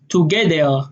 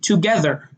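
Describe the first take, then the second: First: The middle consonant is a d sound. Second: The middle consonant is a th sound.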